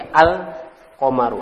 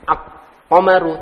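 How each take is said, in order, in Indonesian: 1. Huruf L pada artikel dibunyikan. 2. Huruf L pada artikel diam. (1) "Al-nya terbaca" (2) "bukan apa?"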